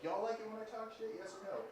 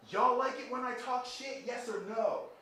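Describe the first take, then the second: First: High-pitched stage call at a contained volume; half-volume imitation of a rapper addressing a crowd; pitched-up shout, held back. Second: High, loud, drawn-out shout to an arena; imitated stage shout, pitched way up. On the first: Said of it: "Like, those voices". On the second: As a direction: holler it out like a rapper working the crowd. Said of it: "he looked at the audience and he said".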